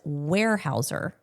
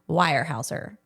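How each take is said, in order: First: The first part does not sound like Weimaraner. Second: The first part sounds like Weimaraner. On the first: The speaker calls it right. "you pronounce the word as" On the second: The speaker calls it wrong. "I'm going to say it the way I think I said it probably in the episode"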